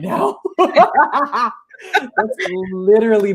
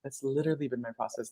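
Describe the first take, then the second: First: Said through a laugh, higher. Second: Much softer and quicker, sincere; quiet repeat. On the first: Coach admitting her own struggle, said laughing. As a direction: laugh at yourself while admitting it. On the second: Coach repeating her admission to the host, softer and quicker. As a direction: drop the laugh and say it softly to yourself. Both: Real, not acted.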